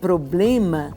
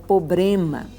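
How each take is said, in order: First: The first syllable has an R after the P. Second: The first syllable has no R after the P. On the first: The speaker calls it right. "de falar problema" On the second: The speaker calls it wrong. "falavam pobrema"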